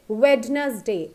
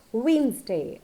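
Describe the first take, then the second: First: WEDNESDAY as "WED-naz-day", d sounded; wrong pronunciation. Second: WEDNESDAY as "WEENZ-day", silent d; correct pronunciation. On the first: Teacher shows what is never said, Wednesday as "wed-naz-day". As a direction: spell out Wednesday in three syllables. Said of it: "It's never said Wednesday". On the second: Teacher shows how it's said, Wednesday as "weenz-day". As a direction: say Wednesday in two syllables. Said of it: "It's said Wednesday". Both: Shown as a demonstration.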